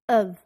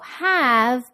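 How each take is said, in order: First: It is said without h, with a relaxed vowel. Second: It is said with a full h and vowel.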